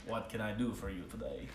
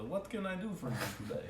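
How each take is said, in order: First: Lower, softer gruff shopkeeper; a badly done dwarf greeting a customer; terrible dwarf voice. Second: Quick, higher mock Russian-ish dwarf accent; the dwarf shopkeeper greets the customer in a fake Draconic accent. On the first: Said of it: "That was, that was terrible. I hated that voice". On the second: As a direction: rattle it off in a faked foreign accent. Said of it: "He'll speak to you in Draconic".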